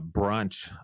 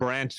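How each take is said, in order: First: It is said in a South African accent. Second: It is said in a North American accent. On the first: "take my South African hat off" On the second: "put my North American accent on"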